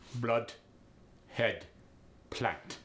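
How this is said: It is said in a Russian accent.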